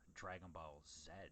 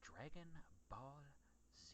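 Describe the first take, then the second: First: It is said the Canadian way, ending in zed. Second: It is said the American way, ending in zee.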